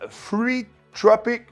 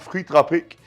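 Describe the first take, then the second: First: It is said with a put-on foreign accent. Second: It is said in the speaker's plain French.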